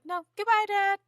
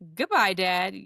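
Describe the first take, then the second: First: It is said in an innocent, sweet tone. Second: It is said in a menacing, ominous tone.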